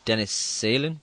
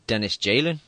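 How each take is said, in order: First: The surname begins with an s sound. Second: The surname begins with a j sound. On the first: The speaker calls it wrong. "I used to call him" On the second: The speaker calls it right. "it's apparently"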